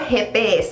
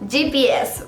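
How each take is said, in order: First: The letters are named with Spanish sounds. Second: The letters are named with English sounds.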